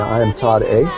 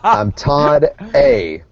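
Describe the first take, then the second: First: The voice rises at the end like a question. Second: The voice falls at the end like a statement.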